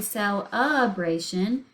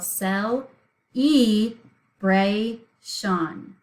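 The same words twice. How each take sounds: First: "celebration" with UH as second syllable, slightly slowed; spoken pronunciation. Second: "cel-e-bra-shon" in separate syllables, long EE second, SHON last; slowly over-pronounce "cel-e-bra-shon" as spelled, full vowels; think-to-spell pronunciation. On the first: Teacher showing how we really say it, UH in the middle. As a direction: say "celebration" as read, cel-UH-bray-shun. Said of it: "whenever we actually say and read the sound". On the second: Teacher showing how to think to spell it, syllables spelled out. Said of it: "we're going to think to spell".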